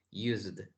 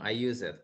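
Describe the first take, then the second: First: USED as one syllable, "yoozd"; correct pronunciation. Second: "used" broken into two syllables, "use-ed"; common learner error. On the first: Teacher correcting a common error, "used" said as one syllable "yoozd". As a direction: run the -d straight onto "used" with a silent E. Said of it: "pero es used". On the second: Teacher showing a very common error, "used" said as "use-ed". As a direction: wrongly voice the E in "used", ending on "-ed". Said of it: "un error muy común". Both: Shown as a demonstration.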